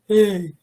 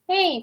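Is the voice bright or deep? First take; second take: deep; bright. First: The voice is low, deep and dark. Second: The voice is high, bright and forward. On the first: "you do Patrick's voice, it'll come down" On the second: "in order to get really forward and bright, I say SpongeBob"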